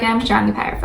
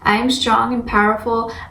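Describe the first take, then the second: First: It is said casually, without conviction. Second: It is said firmly, with conviction. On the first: The words are not really believed. The speaker calls it wrong. "If you're like" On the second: The words are truly believed. The speaker calls it right. "really say it with intention, like you mean it"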